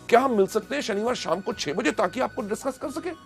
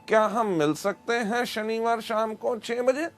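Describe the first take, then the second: First: It is said with excitement and energy. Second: It is said flatly without excitement.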